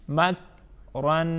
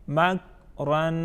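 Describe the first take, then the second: Both takes have the same delivery.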